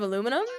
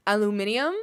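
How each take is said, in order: First: Aluminum as uh-LOO-mi-num, four syllables; American aluminum. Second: Aluminium as al-yoo-MIN-ee-um, five syllables; British aluminium. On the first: Shown as a demonstration. Comparing it with the British way, American aluminum. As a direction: say aluminum stressed on LU, no extra i. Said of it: "instead of aluminum". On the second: Retold or imitated. Admiring how Brits say it, British aluminium. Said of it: "I like how they say".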